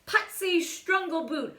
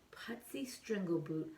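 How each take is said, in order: First: Announced name. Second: Hushed whisper of Putsy Strangleboot; whispered name. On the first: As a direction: announce "Putsy Strangleboot". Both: Acted.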